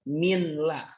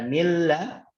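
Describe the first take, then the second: First: The n is pronounced clearly before the l. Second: The n merges fully into the following l. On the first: The speaker calls it wrong. "Gak boleh bacanya min la" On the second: The speaker calls it right.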